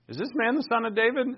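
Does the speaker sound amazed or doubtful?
amazed. It is said with amazed, believing wonder. The asker believes it may be true. "Some are like, whoa"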